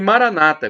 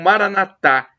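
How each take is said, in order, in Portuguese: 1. A tônica está na penúltima sílaba. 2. A tônica está na última sílaba. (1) "como dizem os protestantes evangélicos, com a tônica na penúltima sílaba" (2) "como dizemos nós católicos"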